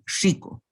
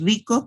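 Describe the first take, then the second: First: The r is hissed like a sibilant. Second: The r is a plain trilled r. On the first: "Chico suena más rico" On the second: "no es lo mismo decir rico"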